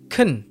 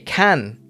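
First: The word has a reduced, weak vowel. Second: The word has a full, clear vowel.

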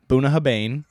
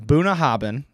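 First: The last syllable sounds like bain. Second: The last syllable sounds like bin. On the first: The speaker calls it wrong. "thought was Boonahabain because it's A-I-N" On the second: The speaker calls it right. "So we got Boonahabin, right?"

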